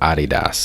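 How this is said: The name is said with a German pronunciation.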